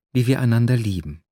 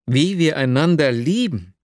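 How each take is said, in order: First: Said in the usual way. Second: Raised exclamation, lifting on lieben; exclaimed. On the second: A narrator's reading. The dreamer echoes Nastjenka's words, exclaiming. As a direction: cry it out in stunned disbelief. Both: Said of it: "rief ich aus".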